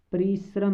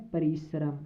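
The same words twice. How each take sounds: First: परिश्रम rattled off fast as the mistaken form; quick wrong take of परिश्रम; wrong pronunciation. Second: परिश्रम said softly with each syllable clear, pa-ri-sha-ram; right take of परिश्रम; correct pronunciation. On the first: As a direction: say परिश्रम hastily, the way not to. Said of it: "परिश्रम नहीं बोलना है". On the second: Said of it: "बोलना है". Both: Shown as a demonstration.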